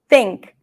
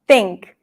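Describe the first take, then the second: First: The first sound is blocked and T-like. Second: The same.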